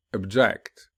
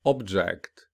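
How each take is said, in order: First: "object" with weak start, strong second syllable; stress on second syllable. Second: "Object" with the first syllable stressed, falling after. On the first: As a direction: verb form, punch the end of "object". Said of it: "whereas the verb will be". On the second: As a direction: noun form, lean on the start of "Object". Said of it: "the noun will be". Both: Shown as a demonstration.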